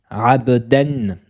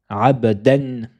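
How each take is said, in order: Both takes have the same delivery.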